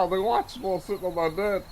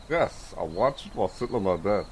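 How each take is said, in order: First: Higher and quick, eager; excited. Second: Said in the usual way. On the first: Shown as a demonstration. Telling chat what he's doing, quick and high. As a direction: rattle it off high and fast.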